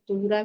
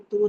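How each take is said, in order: First: The final r is followed by a vowel. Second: The word ends on a bare r sound. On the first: The reciter continues without stopping. "नहीं रुकना है तो सरकत को पढ़ते हुए आगे बढ़ जाना है।" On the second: The reciter stops at this word. "अगर रुकना है तो रा साकिन करके"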